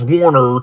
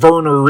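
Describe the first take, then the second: First: The name begins with a W sound. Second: The name begins with a V sound. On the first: The speaker calls it wrong. "instead of Warner" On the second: The speaker calls it right. "in Germany the W is said with a V sound"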